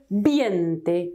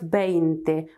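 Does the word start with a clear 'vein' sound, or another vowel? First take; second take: other; vein. First: The first vowel is not the 'ei' diphthong. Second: The first vowel is the 'ei' diphthong. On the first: The speaker calls it wrong. "It's very common to hear 20 instead of 20" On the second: The speaker calls it right. "have EI one after the other"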